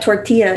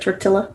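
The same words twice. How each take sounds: First: The double L is said as a Y sound. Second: The double L is said as an L sound. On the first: The speaker calls it right. "pronounced with a y sound" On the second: The speaker calls it wrong. "instead of a la"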